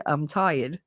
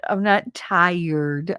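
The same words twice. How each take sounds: First: "tired" as a short "tie-id", no r; natural dropped R. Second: "tired" stretched very slowly with the r sounded; over-pronounce the r in "tired", slowly; careful full R. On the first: Jersey girl showing her usual way, "tired" with no r. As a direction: let the r fall out of "tired". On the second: Jersey girl contrasting with her usual way, slow careful "tired". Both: Shown as a demonstration. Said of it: "I can't even say it correctly".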